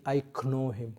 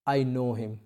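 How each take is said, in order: First: "I know him" with a hard k at the start of know, k-now; sounding the k. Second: "I know him" with know said as no, silent k. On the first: Teacher shows students the mistake, k sounded. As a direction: wrongly pronounce the k in "know". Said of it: "So वहाँ पे आप ये नहीं कह सकते". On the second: Teacher models the correct sound, silent k. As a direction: say "know" just like "no". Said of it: "नो, आपने पढ़ा है ना, के N O W, नो". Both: Shown as a demonstration.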